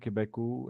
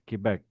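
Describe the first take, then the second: First: The word ends with an added vowel sound. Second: The word ends cleanly on a consonant sound. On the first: The speaker calls it wrong. "It's not" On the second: The speaker calls it right. "It's Quebec"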